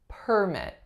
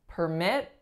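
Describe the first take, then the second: First: The stress is on the first syllable. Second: The stress is on the second syllable. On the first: It is used as a noun. "because I'm stressing the first syllable, you know I'm referring to the noun form" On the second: It is used as a verb. "As a verb, the stress is going to flip"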